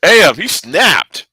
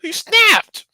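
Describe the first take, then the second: First: Slow awed remark. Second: He snapped squealed very high; high squeal of awe. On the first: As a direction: let each word hang in awe. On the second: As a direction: squeak the words out in amazement. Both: Real, not acted. Awed by Batman's violence.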